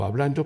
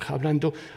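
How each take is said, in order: First: The word begins directly with the vowel. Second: The word begins with a breathy h sound. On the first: This is how the speaker's own variety says it. "yo digo hablando" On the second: This is how people in another region say it. "hay quienes le pronuncian hablando"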